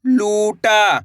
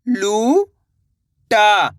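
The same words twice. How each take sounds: First: लूटा joined, long vowels; blended word. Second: लू, long pause, टा; लूटा split slowly, rising then falling; syllable by syllable. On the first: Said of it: "तो मिलके बन जाएगा". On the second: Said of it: "एक अक्षर का उच्चारण करना है". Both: Shown as a demonstration.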